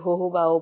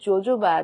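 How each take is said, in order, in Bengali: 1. শব্দটি H শব্দ দিয়ে শুরু। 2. শব্দটি J শব্দ দিয়ে শুরু।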